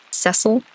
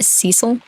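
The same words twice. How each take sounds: First: "Cecil?" with a short e as in "less", questioning; Cecil as SESS-ul. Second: "Cecil?" with a long ee first vowel, questioning; Cecil as SEE-sul. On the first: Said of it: "in the game they say Cecil". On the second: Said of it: "you know, pronounced Cecil". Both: Shown as a demonstration.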